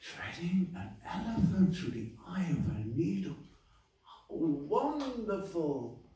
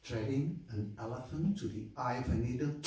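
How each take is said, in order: First: Gasp, then high, drawn-out wonder; awestruck cobbler. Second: Dry, incredulous question; skeptical Brahmin. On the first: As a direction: marvel at it with full faith. Cobbler marvels at the same news. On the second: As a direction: echo it back in scornful disbelief. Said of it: "the Brahmin goes like". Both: Acted.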